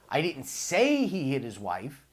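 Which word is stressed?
say. The word "say" carries the stress.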